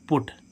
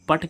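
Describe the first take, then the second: First: The vowel is a rounded 'oo' sound. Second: The vowel is an open 'uh' sound. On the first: This word is an exception to the rule. The speaker calls it right. "लेकिन इसको क्या पढ़ रहे हैं हम पुट" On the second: This is what the general rule would predict. The speaker calls it wrong. "इसको हम पट क्यों नहीं पढ़ रहे"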